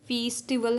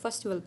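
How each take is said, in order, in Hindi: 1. पहला स्वर लंबा है और पूरी तरह बोला जाता है। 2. पहला स्वर छोटा है और हल्का है। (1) "फेस्टिवल हम नहीं पढ़ते" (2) "इसको फेस्टिवल पढ़ते हैं, तो इसमें ई जो है वो शॉर्ट है"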